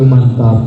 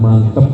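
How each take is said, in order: First: The second vowel is an open 'ah'. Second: The second vowel is a weak 'eh'. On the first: The speaker calls it right. "Jadi mantap itu mantap" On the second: The speaker calls it wrong. "bukan mantep"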